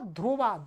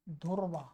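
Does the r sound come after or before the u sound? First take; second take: before; after. First: The r sound comes before the u sound. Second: The r sound comes after the u sound. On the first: The speaker calls it right. "सही क्या" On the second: The speaker calls it wrong. "जो प्राय करके लोग उच्चारण गलत करते हैं वो क्या बोलते हैं, ऐसे बोल देते हैं"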